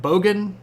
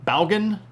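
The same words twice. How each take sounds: First: Bogan said as "BOH-gan", long o and stress on the first syllable; trying the word. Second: Balgan said with an "al" sound in the first syllable; trying the word. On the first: Asks chat how to say it, trying bogan. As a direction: test out "bogan" with a rising question tune. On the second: Asks chat how to say it, trying balgan. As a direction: test out "balgan" as a rising question. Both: Shown as a demonstration. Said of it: "where's the accent on that?".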